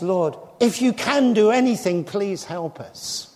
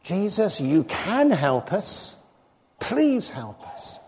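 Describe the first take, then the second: First: Retold plea, hesitant on if you can; doubtful plea. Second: Faithful man's slow, trusting appeal; trusting plea. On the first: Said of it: "The father of the epileptic boy says". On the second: Retold or imitated. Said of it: "If you knew me better... you would say".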